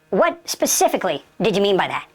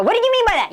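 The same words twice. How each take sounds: First: Said in the usual way. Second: High-pitched, worked-up demand; overreacting, pitch jumping up; emotional demand. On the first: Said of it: "So you relax". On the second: Shown as a demonstration. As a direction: ask it heatedly, as a bad example. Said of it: "You don't use emotion".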